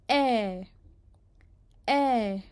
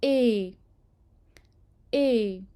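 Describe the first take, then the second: First: ए with the mouth almost fully open, an open French è; ए like an open è, mouth nearly wide. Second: ए with lips spread in a smile, mouth barely open, a closed French é; ए like a closed é, smiling lips. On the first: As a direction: drop the jaw wide and say ए open. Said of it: "उसके बाद आता है accent grave". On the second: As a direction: say ए smiling, lips stretched long, jaw nearly shut. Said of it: "इसको पढ़ा जाता है ए". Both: Shown as a demonstration.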